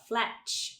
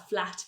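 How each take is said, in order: First: The word ends in a ch-like sound. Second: The word ends in a plain t sound. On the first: The speaker calls it wrong. "a gente tende a falar" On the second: The speaker calls it right. "ao invés de falar flat"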